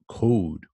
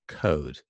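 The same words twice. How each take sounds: First: The vowel is said with strong lip rounding. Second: The vowel is said with little lip rounding. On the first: "this one is very round" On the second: "that's kind of standard British code"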